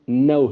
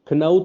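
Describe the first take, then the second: First: The k at the start is silent. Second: The k at the start is sounded. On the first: The speaker calls it right. "इसकी correct pronunciation नौ है" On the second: The speaker calls it wrong. "अब इसको आप खनऊ तो नहीं पढ़ेंगे"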